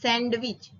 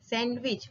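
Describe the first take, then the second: First: The D sound is pronounced. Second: The D sound is silent. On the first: The speaker calls it wrong. "not sandwich" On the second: The speaker calls it right. "in English you have to speak like this"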